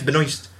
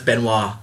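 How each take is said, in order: First: The S in the name is sounded. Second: The S in the name is silent. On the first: "it is Benoist" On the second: "unless it's a silent S, then it's Benoit"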